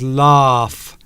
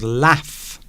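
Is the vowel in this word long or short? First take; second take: long; short. First: The vowel is long and extended. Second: The vowel is short and clipped. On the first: "it's an extended vowel" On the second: "almost Italian in its open vowels"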